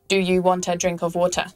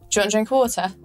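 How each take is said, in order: First: Each word is said separately, flat and robotic. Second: The words are blended together smoothly.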